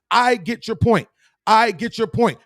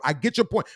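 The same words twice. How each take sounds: First: Higher, firmer repeat; emphatic repeat. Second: Said in the usual way. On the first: Shown as a demonstration. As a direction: hammer the point home. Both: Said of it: "Watch this".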